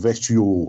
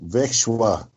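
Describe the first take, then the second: First: The middle has a sh sound, ending shio. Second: The middle has a sh sound, ending shwa. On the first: "or Vekshio" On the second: "not Vekshwa"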